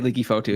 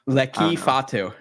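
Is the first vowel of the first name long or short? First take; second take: long; short. First: The first vowel is a long e sound. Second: The first vowel is a short e sound. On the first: "I'm just gonna say leaky Fatu still" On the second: "Lecky with a short e"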